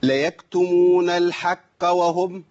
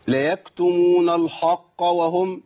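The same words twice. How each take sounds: First: الحق with the qaf softened toward k, slow; wrong qaf. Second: الحق with a different faulty qaf, slow; mis-say الحق deliberately; wrong qaf. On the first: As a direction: recite الحق with a weak qaf. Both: Shown as a demonstration. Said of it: "ما تنفعش".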